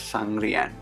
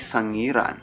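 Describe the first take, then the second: First: The r comes right after the first syllable. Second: A vowel comes before the r sound. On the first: The speaker calls it wrong. "I made a significant mistake by pronouncing the village of Javaman Museum as Sangrian" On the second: The speaker calls it right. "It's actually Sangiran"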